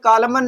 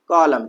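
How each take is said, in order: First: The word ends with an audible n sound. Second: The word ends on m with no n. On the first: The speaker calls it wrong. "कॉलमन नहीं पढ़ेंगे" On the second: The speaker calls it right. "हम क्या पढ़ेंगे भैया, कॉलम"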